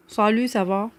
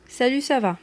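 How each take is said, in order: First: "Salut, ça va?" with a heavy, dark emphatic S in "Salut" and "ça"; exaggerated emphatic letter. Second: Said in the usual way. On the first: Shown as a demonstration. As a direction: lean hard on the emphatic S sounds in "Salut, ça va?". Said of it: "et que là, j'ai un peu exagéré". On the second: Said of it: "vous avez entendu que là, j'ai parlé normalement".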